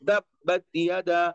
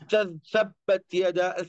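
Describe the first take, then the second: First: The t is made with tongue tip at teeth. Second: The t is made away from the teeth. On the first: The speaker calls it right. "तो इस तरीके से ता की आवाज वहीं से निकलेगी जहां से उसका मखरज है" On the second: The speaker calls it wrong. "आप ऐसे नहीं बोल सकते"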